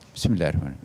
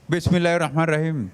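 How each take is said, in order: First: The phrase is said at a moderate, audible volume. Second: The phrase is shouted very loudly. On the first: The speaker calls it right. "kalau kita katakan" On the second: The speaker calls it wrong. "jangan teriak"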